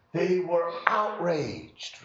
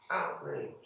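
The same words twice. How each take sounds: First: Said in the usual way. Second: Whispered echo, much softer. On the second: Acted. Preacher echoes the servants' anger to the congregation in a whisper. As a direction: breathe the word outraged as a whisper. Repeats outraged.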